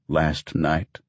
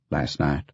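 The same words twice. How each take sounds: First: Incredulous echo. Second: Said in the usual way. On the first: Acted. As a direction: stress on Last, questioning disbelief. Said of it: "He came home last night".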